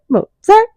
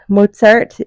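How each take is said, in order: First: It is said in a robotic, musical AI voice. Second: It is said clearly in her normal voice.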